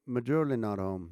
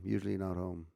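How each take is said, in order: First: "majorly not home", with "usually" turned into "majorly"; Aussie-style pronunciation. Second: Said in the usual way. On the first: Shown as a demonstration. Streamer demonstrates Aussie phrase, "majorly not home" for "usually not home". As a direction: say "usually" loose-jawed as "majorly". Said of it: "I'm trying to relax the jaw". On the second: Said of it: "when I say it".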